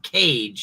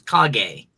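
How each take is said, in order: First: It sounds like the English word cage. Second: It does not sound like the English cage. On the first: The speaker calls it wrong. "it's not Cage" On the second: The speaker calls it right. "it's Kage"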